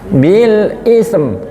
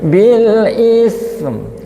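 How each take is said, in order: First: The final consonants are cut off hard and stiffly. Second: The final consonants are released softly and smoothly. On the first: The speaker calls it wrong. "terbaca sudah tapi syiddah" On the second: The speaker calls it right. "lunak rokhwah"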